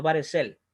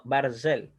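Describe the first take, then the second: First: Baresel with a vowel sounded between r and s; wrong reading baresel. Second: Barzel said slowly, silent shva, r and z run together; correct reading barzel. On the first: Teacher showing students the wrong reading, baresel with a sounded vowel. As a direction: sound out baresel, giving the shva a full vowel. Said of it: "No baresel". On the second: Teacher modelling the right reading, slow barzel with a silent shva. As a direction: say barzel slowly, with no vowel between r and z. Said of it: "sino barzel". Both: Shown as a demonstration.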